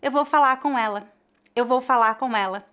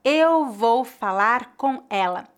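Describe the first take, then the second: First: Quick speech, the R of falar dropped; rapid relaxed Brazilian speech; fast casual. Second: Slow and clear, every R said; slow careful. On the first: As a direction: rush it like everyday talk. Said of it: "Quando falamos rapidamente". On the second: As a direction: articulate each word carefully. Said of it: "Por exemplo". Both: Shown as a demonstration.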